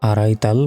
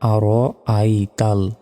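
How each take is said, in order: First: The middle vowels run together without a break. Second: The middle vowels are separated by a catch. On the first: The speaker calls it wrong. "আরাই তাল বলা যাবে না" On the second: The speaker calls it right.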